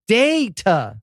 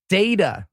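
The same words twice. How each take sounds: First: The word is said slowly and deliberately. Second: The word is said at a normal pace.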